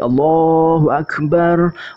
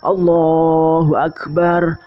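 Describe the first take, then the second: The two takes are said the same way.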